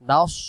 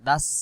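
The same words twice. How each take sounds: First: The s is heavy, with rounded mouth. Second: The s is light, with thin mouth. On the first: "মুখটা গোল হয়ে চলে আসবে" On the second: "মুখটা ফাঁকা মানে পাতলা হয়ে যেত"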